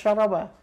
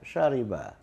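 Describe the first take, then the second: First: The middle vowel is a. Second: The middle vowel is i. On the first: The speaker calls it wrong. "bukan syaraba" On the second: The speaker calls it right. "tapi sya, syariba"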